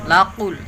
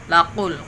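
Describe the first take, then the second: The two takes are said the same way.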